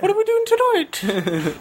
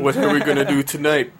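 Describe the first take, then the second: First: It is said in a high Pinky voice. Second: It is said in an ordinary voice.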